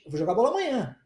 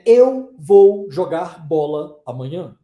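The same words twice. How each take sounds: First: Said quickly, with the words run together. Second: Said slowly, with the words separated by pauses. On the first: The speaker calls it right. "A gente fala naturalmente" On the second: The speaker calls it wrong. "A gente não fala assim pausadamente"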